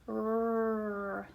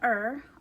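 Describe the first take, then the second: First: A bare r sound with no vowel before it. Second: A vowel sound comes before the r. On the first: The speaker calls it right. "R is R, like rope and rabbit" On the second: The speaker calls it wrong. "make sure you don't say er"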